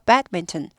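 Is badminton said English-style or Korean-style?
English. It is said English-style with a clipped break. The speaker calls it right. "여기 스타카토 있어요"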